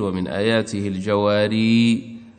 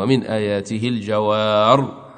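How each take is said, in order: First: The last word ends with a long 'ee' vowel. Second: The last word ends without the final vowel. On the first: This is the reading that keeps the final ya when pausing. "وإذا وقف ابن كثير" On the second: This is the reading that drops the final ya when pausing. "نافع وأبو عمرو ... حال الوقف"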